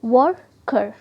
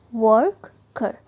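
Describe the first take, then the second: First: Said in the usual way. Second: worker stretched very slowly as वर्क-कर; slow drawn-out word. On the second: Shown as a demonstration. Teacher demonstrating the word for students, very slowly. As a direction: draw worker out slowly, syllable by syllable. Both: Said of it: "next देखिए worker".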